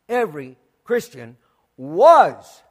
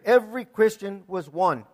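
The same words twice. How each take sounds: First: Every word spaced out, WAS swooping up loud; stress on WAS. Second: Said in the usual way. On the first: Shown as a demonstration. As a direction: hold back, then punch the word was. Repeats slowly to stress WAS.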